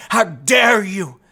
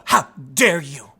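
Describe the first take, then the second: First: Scolding a stranger on the street, hammed-up angry yell; angry activist shout. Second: Low, slow, lightly voiced seething activist; a hint of a scolding Greta Thunberg; seething angry activist. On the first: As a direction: blow up at a passer-by, stretching every word. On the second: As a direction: hold the anger in, drag out each word. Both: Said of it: "looking angry".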